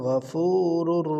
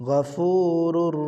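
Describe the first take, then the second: The two takes are said the same way.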